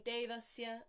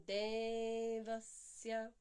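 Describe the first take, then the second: First: Devasya said evenly with a short first E; quick Devasya with no held vowel; short-count version. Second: Devasya chanted with a long held De; two-count E. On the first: Contrasting for students, Devasya with short counts. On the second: Contrasting for students, Devasya slow with long E. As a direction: stretch the first syllable of Devasya on one note. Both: Shown as a demonstration. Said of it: "hear the difference between".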